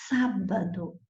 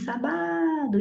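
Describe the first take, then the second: First: The stress is on the first syllable. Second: The stress is on the second syllable. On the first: The speaker calls it right. "Esta é a mais forte, é a antepenúltima" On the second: The speaker calls it wrong. "nem a penúltima"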